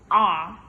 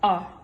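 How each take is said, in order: First: The word is said with its full vowel. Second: The word is said with a reduced vowel. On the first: "in strong form be pronounced R" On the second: "weak form pronounced A"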